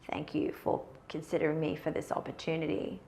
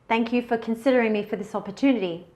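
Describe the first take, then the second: First: The voice is low and creaky, with vocal fry. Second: The voice is clear and projected, without creak. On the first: The speaker sounds insecure and not competent. The speaker calls it wrong. "That's vocal fry" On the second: The speaker sounds confident and competent. The speaker calls it right. "in a normal speaking voice"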